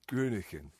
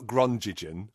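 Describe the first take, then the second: First: It is said to rhyme with Heineken. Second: It is said not rhyming with Heineken. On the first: The speaker calls it right. "that's how you pronounce it" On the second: The speaker calls it wrong. "not Grongigen, which is what I'd been saying before"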